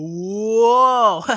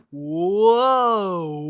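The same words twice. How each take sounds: First: Long, low, even louder whoa. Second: Long, low, loud whoa. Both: Retold or imitated. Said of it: "And I was like".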